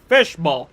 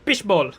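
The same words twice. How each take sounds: First: It is said in an English accent. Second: It is said in a Filipino accent. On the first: "if you're gonna pronounce it in in an, an English accent, it's pronounced fishball" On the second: "but in in the Philippines, it's called fishball"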